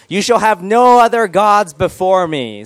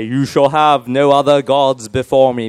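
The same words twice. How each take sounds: First: Slow, higher-pitched solemn proclamation; grand proclamation. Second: Slow, stately British voice of God; British accent. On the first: Shown as a demonstration. Pastor reads the first commandment to the room, grand proclamation. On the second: Acted. God speaks to Moses on the mountain, British accent. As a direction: proclaim it slowly in a put-on British accent. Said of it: "they speak with British accents".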